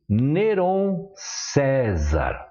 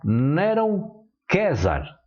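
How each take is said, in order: First: César begins with an S sound. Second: César begins with a K sound.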